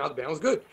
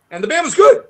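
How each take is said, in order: First: Softer, lower repeat of "the band was good"; quiet aside. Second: Higher, louder insistence on "good"; emphatic. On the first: Repeating to the interviewer under his breath, quiet. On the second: Insisting to the interviewer his band was good, emphatic. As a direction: punch the word "good" with a lift. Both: Real, not acted.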